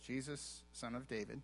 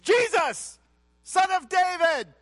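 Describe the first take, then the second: First: It is said calmly at a quiet level. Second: It is cried out loudly with force. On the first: It is a plain reading of the words. The speaker calls it wrong. "We read it like this" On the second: The speaker is desperate to be noticed. The speaker calls it right. "He cried out saying, He was trying to get his attention"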